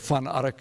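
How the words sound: The name is said with a Dutch pronunciation.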